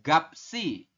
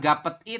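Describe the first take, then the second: First: An s sound links into the final i. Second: No s sound links into the final i. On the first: The speaker calls it right. "tapi dibacanya adalah gapsi" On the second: The speaker calls it wrong. "bukan gapet i"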